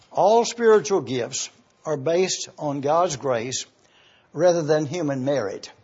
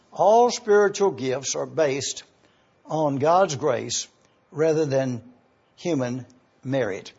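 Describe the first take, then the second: First: Said in the usual way. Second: Slowed down, each phrase spaced out for note-taking; deliberate, slow dictation pace. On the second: Shown as a demonstration. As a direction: say it slowly so they can write it down. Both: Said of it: "Let me repeat this for you to be able to get it down correctly".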